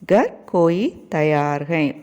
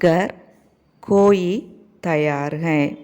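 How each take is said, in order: First: It is spoken at a normal pace. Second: It is spoken slowly and deliberately.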